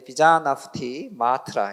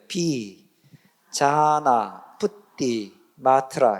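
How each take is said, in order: First: It is read a little faster, more run together. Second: It is read slowly, part by part, with pauses. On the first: "조금 빨리 읽으면" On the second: "이렇게 읽으시면 돼요"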